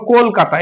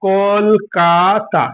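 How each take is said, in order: First: Said in the usual way. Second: "Kolkata" slowly in three beats, কল, কা, তা; broken into syllables. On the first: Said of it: "এটাকে আমরা উচ্চারণ করছি কেমন ভাবে". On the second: Shown as a demonstration. Teacher showing pupils the syllables, "Kolkata" slowly broken up. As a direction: break "Kolkata" apart, drawing out each syllable. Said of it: "ভেঙে ভেঙে".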